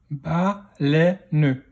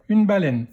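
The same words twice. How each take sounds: First: "baleine" split into ba, lè, ne; "baleine" in three separate beats; syllable by syllable. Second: Said in the usual way. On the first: Shown as a demonstration. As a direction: sound out "baleine" with a final ne. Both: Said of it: "dans quelle syllabe".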